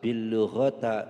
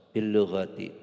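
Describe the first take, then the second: First: The last word ends with an a vowel. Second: The last word ends with an i vowel. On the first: The speaker calls it wrong. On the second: The speaker calls it right. "maka akhirnya dibaca kasroh"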